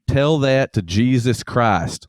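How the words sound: It is said in a Southern accent.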